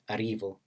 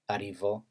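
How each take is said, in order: First: The stress is on the middle syllable. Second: The stress is on the last syllable. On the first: "word medial" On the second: "word final stress"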